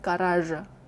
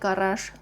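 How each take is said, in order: First: The word ends in a voiced zh sound. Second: The word ends in a voiceless sh sound. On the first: The speaker calls it wrong. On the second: The speaker calls it right. "actually pronounced like sh"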